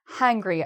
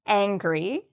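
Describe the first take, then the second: First: The word begins with an H sound. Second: The word begins directly with a vowel. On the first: The speaker calls it wrong. "people sometimes add an H to angry" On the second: The speaker calls it right. "There's no H"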